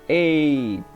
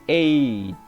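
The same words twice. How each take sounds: Both takes have the same delivery.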